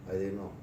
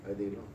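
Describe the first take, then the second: No difference in how they are said.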